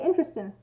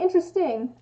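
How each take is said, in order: First: The word ends with an 'in' sound, no g. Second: The word ends with a full 'ing' sound. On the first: "I say interesting. ... I drop G's" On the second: "I don't say interesting"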